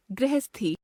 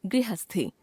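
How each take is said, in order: First: गृहस्थी as "grehesthi"; wrong pronunciation. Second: Said in the usual way. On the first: Shown as a demonstration. Teacher showing a common error, गृहस्थी as "grehesthi". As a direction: replace the ri of गृहस्थी with re. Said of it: "अशुद्ध". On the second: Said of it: "शुद्ध".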